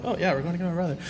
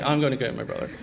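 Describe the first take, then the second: First: Higher, lightly re-enacted childhood excitement; excited retelling. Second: Understated retelling of dad's upset resolve. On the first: Telling of the car ride to fetch brother, excited. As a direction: play back a kid's mild thrill. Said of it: "it was, like, really exciting". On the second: Retold or imitated. Retelling dad leaving to fetch his son, mildly upset. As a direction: voice dad's determination, only mildly heated. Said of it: "he was so upset".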